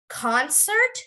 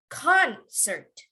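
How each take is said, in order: First: The stress is on the second syllable. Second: The stress is on the first syllable.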